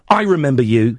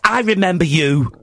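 First: It is said in the speaker's natural voice. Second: It is said in a put-on imitating voice.

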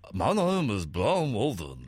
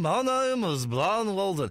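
First: An impression of a grumpy old sitcom character. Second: An impression of a political television broadcaster. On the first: "do your Steptoe and Son voice saying what David would say" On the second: "It's meant to be Brian Walden"

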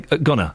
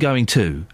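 First: The words are blended into one reduced word. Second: Both words are said fully and separately. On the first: The speaker calls it wrong. "I say, gonna" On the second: The speaker calls it right. "Instead of saying going to"

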